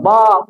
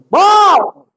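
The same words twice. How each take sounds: First: It is called at normal, softer volume. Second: It is called out loudly, shouting.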